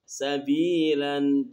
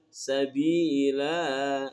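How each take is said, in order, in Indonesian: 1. Kata ini berakhir dengan bunyi n. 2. Kata ini berakhir dengan vokal panjang.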